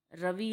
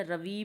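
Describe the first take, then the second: First: Said in the usual way. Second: रवि stretched to ravee; रवि said as "ra-vee"; long final vowel. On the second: Shown as a demonstration. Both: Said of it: "बोल देते हैं".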